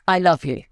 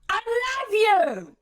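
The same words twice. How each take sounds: First: Tender and soothing; warm, loving. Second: Much higher, slow, strained blunt yell; angry, frustrated. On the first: Speaker trainer demonstrating a loving, warm delivery. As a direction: say it with kindness and warmth. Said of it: "it's beautiful, it's soothing, there's warmth to it". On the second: Trainer exaggerating the same words as angry frustration. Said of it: "anger, frustration, blunt directness coming out of my voice". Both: Shown as a demonstration.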